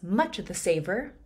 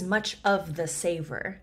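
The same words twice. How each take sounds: First: The words 'of the' are clipped short. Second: The words 'of the' are said in full. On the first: The speaker calls it right. "a quick way to say of the" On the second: The speaker calls it wrong. "It's not"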